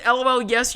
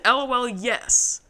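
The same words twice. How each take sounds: First: Said in the usual way. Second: "L O L, yes." drawn out slowly, each word weighed; slow mocking reread of "L O L, yes."; slow quoted reply. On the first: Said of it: "He said". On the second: Shown as a demonstration. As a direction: repeat "L O L, yes." slowly to pick it apart. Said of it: "Which I would like to unpack because you said".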